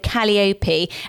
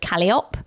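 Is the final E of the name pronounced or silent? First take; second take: pronounced; silent. First: The final E is pronounced as a syllable. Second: The final E is silent. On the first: The speaker calls it right. "it's quite phonetic" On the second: The speaker calls it wrong. "you didn't really say the E"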